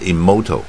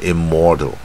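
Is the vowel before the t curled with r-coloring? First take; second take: no; yes. First: The vowel is said without a curled tongue. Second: The vowel is said with a strongly curled tongue. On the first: The speaker calls it wrong. "不卷舌是immortal" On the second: The speaker calls it right. "卷舌是immortal"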